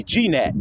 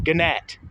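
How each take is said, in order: First: G nat said as jee-NAT; wrong self-correction. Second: Gnat with the G sounded, guh-NAT; misread word. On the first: Classmate correcting his misreading, mispronounced gee-nat. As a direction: read the G in G nat as its letter name, "gee". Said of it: "then he corrected himself and said". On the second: Classmate reading gnat aloud from a book, mispronounced guh-nat. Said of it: "Well, he didn't know that". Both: Retold or imitated.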